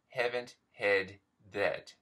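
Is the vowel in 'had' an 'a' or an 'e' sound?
e. The vowel in 'had' is an 'e' sound.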